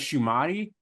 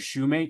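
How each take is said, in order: First: The surname ends with a 'tee' sound. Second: The surname ends with a 'mate' sound. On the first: The speaker calls it wrong. "I always thought it was Shumati" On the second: The speaker calls it right. "I'm pretty sure that's the right pronunciation"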